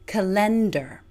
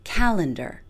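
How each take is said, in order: First: The stress falls on the second syllable. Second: The stress falls on the first syllable. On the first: The speaker calls it wrong. "places full stress on the second syllable" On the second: The speaker calls it right. "place all of our stress on the first syllable"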